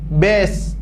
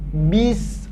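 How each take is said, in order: First: The vowel sounds like e. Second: The vowel sounds like i. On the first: The speaker calls it wrong. "bukan huruf E, bukan bes" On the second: The speaker calls it right. "tapi bis"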